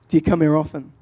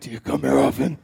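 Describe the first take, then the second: First: It is said in a normal voice. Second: It is said in a deep Batman-like voice.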